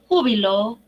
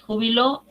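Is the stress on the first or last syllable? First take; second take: first; last. First: The stress is on the first syllable. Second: The stress is on the last syllable. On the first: Great joy. "ju, en la, aquí, última, penúltima, antepenúltima sílaba" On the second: Someone retired from work. "en la última sílaba"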